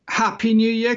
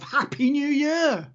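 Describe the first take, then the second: First: It is said with ordinary, low energy. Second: It is said with much more energy.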